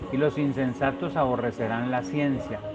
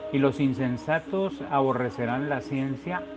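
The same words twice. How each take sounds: No difference in how they are said.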